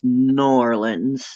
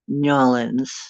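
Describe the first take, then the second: First: It is said with an r sound. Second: It is said with a y-glide.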